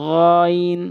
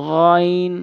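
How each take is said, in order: No difference in how they are said.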